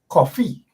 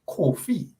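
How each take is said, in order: First: The first vowel sounds like 'aw' in coffee. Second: The first vowel sounds like 'oh' in go. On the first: This is the local way the name is said. "we all pronounce the name as coffee" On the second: This is the original African way the name is said. "as opposed to Kofi"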